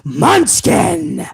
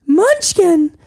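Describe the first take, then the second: First: Much lower, deep Munchkin; with bass in the voice. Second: Much higher, thin Munchkin. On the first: Underling redoing Munchkin lower, as the boss demanded. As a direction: drop Munchkin low and heavy. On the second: Underling saying Munchkin before the boss corrects him, high. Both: Pretend. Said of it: "put some bass in your voice".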